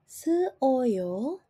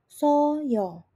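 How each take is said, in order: First: The vowels are said as separate syllables. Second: The vowels merge into a single syllable. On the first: The speaker calls it wrong. "bunyinya tidak akan menjadi se-o-yo" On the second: The speaker calls it right. "melainkan bunyinya akan menjadi so-yo"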